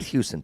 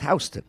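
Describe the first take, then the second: First: It is said like the Texas city name. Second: It is said like the New York street name. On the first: The speaker calls it wrong. "It's not Houston, Texas" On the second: The speaker calls it right. "It's Houston"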